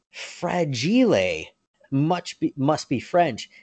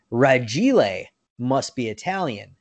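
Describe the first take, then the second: First: "Fragile" with the F, drawn out as fra-JEE-lay; misquoted movie line. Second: "Ragile" with no F, said ra-JEE-lay; F left off. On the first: Fans misquoting the movie, "Fragile" as slow fra-JEE-lay. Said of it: "they'll try to quote, quote the movie". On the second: Quoting the movie dad correctly, "Ragile" as ra-JEE-lay without F. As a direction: drop the first sound: "Ragile" as ra-JEE-lay. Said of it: "the F is actually not on the case". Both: Retold or imitated.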